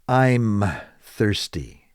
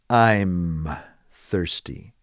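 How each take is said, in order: First: The first two words are run together. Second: The same.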